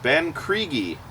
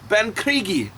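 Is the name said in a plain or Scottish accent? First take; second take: plain; Scottish. First: It is said in the speaker's ordinary accent. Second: It is said in a put-on Scottish accent. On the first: "I hope I'm saying it right" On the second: "with Scotch accent"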